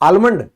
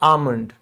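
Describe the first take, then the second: First: The L sound is pronounced in the word. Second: The L sound is left out of the word. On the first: The speaker calls it wrong. "नहीं, ये एल silent है" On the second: The speaker calls it right. "इसको हम कहते हैं आमंड"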